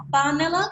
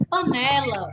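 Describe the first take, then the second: First: "panela" misstressed as PÁ-nela; stress on first syllable. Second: "panela" stressed pa-NE-la; stress on middle syllable. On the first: Teacher rejecting a wrong stress, "panela" said PÁ-nela. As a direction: lean on PA at the start of "panela". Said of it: "a gente não chama de". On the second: Teacher giving the usual word after wrong ones, "panela" said pa-NE-la. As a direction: lean on the NE in "panela". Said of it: "A gente chama de". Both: Shown as a demonstration.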